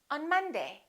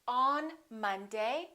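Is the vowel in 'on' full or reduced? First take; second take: reduced; full. First: The vowel in on is reduced to uh. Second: The vowel in on is full. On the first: The speaker calls it right. "we say ... Un" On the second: The speaker calls it wrong. "We don't say"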